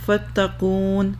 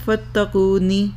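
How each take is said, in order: First: The word ends on the final n sound. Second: The word ends with an added short i vowel. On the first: The reader stops after this word. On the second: The reader continues without stopping.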